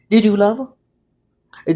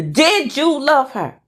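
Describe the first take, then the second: First: Slow, weighted question. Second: Higher, insistent demand; insistent questioning. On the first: Wife asking husband about the affair, slow and restrained. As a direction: ask it slowly, holding back. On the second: Wife demanding husband's answer, higher and insistent. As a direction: lift the pitch and demand an answer. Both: Acted.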